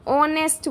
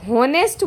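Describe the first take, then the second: First: ऑनेस्ट with a silent h, said slowly; ऑनेस्ट with the h silent, slow and clear; correct pronunciation. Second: हॉनेस्ट with a sounded h; हॉनेस्ट pronounced with an h, as students wrongly say it; wrong pronunciation. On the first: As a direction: say ऑनेस्ट starting on the vowel, no h. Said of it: "इसमें एच silent है". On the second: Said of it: "जबकि ये गलत है". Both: Shown as a demonstration.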